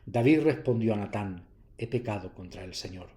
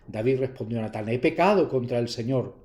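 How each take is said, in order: First: The voice drops slightly, after a short pause. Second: The voice is raised louder on the sentence. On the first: The speaker calls it right. "Más bien incluso bajarlo un poquito" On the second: The speaker calls it wrong. "aquí no pegaba mucho subir, subir la voz. ... No pega"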